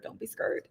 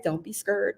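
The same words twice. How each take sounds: First: Whisper. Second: Said in the usual way. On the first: Real, not acted. Coaxing viewers into the room.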